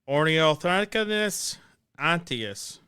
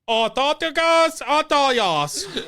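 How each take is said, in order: First: It is said in a plain, ordinary accent. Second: It is said in a put-on Australian accent. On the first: "I'm trying to say it normal" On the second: "say it in an Australian accent"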